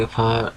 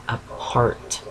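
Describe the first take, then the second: First: "apart" slipping out in an East Coast accent. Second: "apart" repeated slowly and carefully, without the East Coast accent; slow, deliberate redo of "apart", sounding out the r; accent corrected. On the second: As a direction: softly correct "apart", drawing it out. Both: Real, not acted. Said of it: "trying to lose my frickin' accent".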